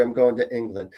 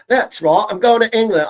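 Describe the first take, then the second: First: Said in the usual way. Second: High, loud British accent. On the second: Shown as a demonstration. Psychic telling viewers about a trip to England, in British accent. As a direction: put on a playful British accent, pitched up. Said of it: "brush up on my British".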